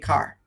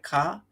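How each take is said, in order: First: The vowel ends in a clear, hard r. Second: A light ah vowel with only a slight r. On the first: "Americans say car, right? That hard R" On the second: "a light ah sound, ah, slight r in there"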